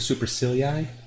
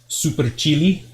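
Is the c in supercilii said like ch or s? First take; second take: s; ch. First: The c is said like an s sound. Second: The c is said like a ch sound. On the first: "So I Americanized the pronunciations" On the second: "if you want to get accurate with the pronunciation, it's more like"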